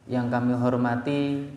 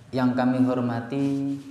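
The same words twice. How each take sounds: The two takes are said the same way.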